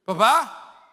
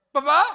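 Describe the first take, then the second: First: Put-on a high, loud child's call; little boy calling dad. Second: Put-on higher, louder, rising child's call; child calling dad again. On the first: Little son in the garage calling his dad, high and loud. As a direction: call out like a small son looking for his father. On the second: Little son calling louder for his dad, rising at the end. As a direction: call again, more urgent, voice climbing.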